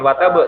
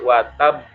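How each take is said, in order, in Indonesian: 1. Bunyi b-nya pendek, tanpa tahan. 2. Bunyi b-nya dirangkap, ditahan, lalu dilepas. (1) "bukan watab" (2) "Tahan baru pantulkan"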